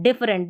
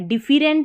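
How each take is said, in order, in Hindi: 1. 'dif' के बाद का स्वर रिड्यूस्ड 'uh' है। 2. 'dif' के बाद का स्वर पूरा 'e' है। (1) "इसका ई उच्चारण नहीं है, एक तरीके से अ के साउंड में ही आ गया" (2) "डिफरेंट नहीं बोलना"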